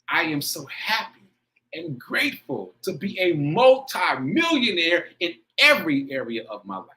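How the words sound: It is said with strong, heartfelt feeling.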